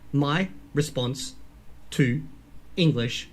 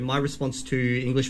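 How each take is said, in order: First: The words are broken up and said separately. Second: The words flow together smoothly without breaks. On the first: "You could break up any word" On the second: "roll that stuff together"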